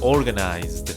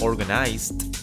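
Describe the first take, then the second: First: The word ends in a voiced D sound. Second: The word ends in a voiceless T sound. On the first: The speaker calls it right. "You have to make sure the ending is voiced" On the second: The speaker calls it wrong. "It is not organized"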